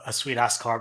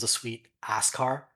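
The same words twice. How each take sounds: First: The word 'ass' is grouped with 'sweet'. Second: The word 'ass' is grouped with 'car'. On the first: The car is very good. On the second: It is a pleasant car made of a backside.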